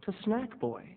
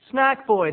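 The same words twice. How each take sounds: First: Said in the usual way. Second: Louder, higher show name; punchy Snack Boy title call; big announcer title. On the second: Shown as a demonstration. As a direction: announce it like a TV host.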